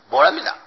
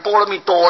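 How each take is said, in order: First: The last syllable is a short, light 'da'. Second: The last syllable is a full 'duo'. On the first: This is the original sound of the term. "原音应当是波罗蜜达" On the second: This is the term read by its written characters. "照字念就念成波罗蜜多了"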